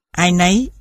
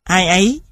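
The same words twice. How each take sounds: First: "nấy" with an n linking it to "ai"; "ai nấy" joined by an added n; added sound. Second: Said in the usual way. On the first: Shown as a demonstration. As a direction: insert n at the start of "nấy". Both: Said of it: "hiện tượng thêm âm".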